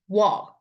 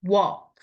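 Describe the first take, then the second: First: The vowel is said with the mouth wide open. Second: The vowel is said with the mouth wide open.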